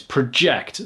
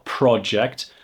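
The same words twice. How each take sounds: First: The stress is on the second syllable. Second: The stress is on the first syllable. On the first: It is a verb meaning to throw the voice forward. "So the stress is on the ject" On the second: It is a noun meaning a planned piece of work. "I have a project, pro"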